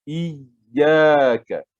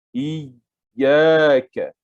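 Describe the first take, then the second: Both takes have the same delivery.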